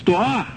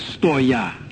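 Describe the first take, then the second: First: The word ends in a plain 'a' sound. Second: The word ends in a 'ya' sound. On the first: This is the original Greek form. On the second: This is how Russian speakers would say it.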